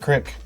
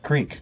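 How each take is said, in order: First: The word is said in a country way. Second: The word is said in the standard way.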